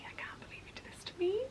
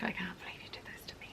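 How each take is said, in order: First: Whispered again, pitched much higher. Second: Whispered accusation, fast and breathless; hissed whisper. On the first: To her friend back home, a high, fast accusing whisper. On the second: To her friend back home, a fast accusing whisper. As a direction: hiss the blame under your breath. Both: Retold or imitated.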